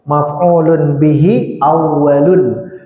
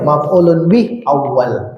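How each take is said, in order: First: The vowel endings of the words are pronounced. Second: The vowel endings of the words are dropped. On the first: "jadi kita bacakan akhirannya" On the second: "Kalau sudah mahir boleh"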